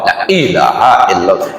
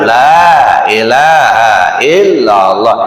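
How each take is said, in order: First: The vowel in 'la' is short. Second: The vowel in 'la' is drawn out long. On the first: The speaker calls it wrong. "Itu nggak ada ilmu tajwidnya" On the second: The speaker calls it right. "ini kan panjang nih lam alif"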